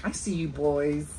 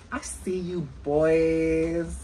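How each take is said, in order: First: Said in the usual way. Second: Put-on slow, stretched repeat with a long BOYS; drawn-out teasing. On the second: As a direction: drag out "boys" as a playful tease.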